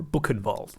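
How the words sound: The name is said with an English pronunciation.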